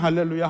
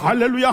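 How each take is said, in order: First: It is said at a normal, quieter volume. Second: It is shouted very loudly at normal speed. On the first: "그전에는" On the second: "크니까"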